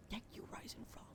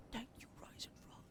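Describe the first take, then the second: No difference in how they are said.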